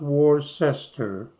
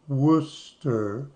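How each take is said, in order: First: The first syllable sounds like 'wor'. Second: The first syllable sounds like 'woo'. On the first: The speaker calls it wrong. "not Worcester" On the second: The speaker calls it right. "like W O O"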